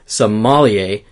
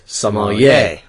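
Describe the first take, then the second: First: The stress falls as in 'Somalia'. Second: The stress falls differently from 'Somalia'. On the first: The speaker calls it wrong. "we were putting the accent on the wrong syllable" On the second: The speaker calls it right. "instead of sommelier"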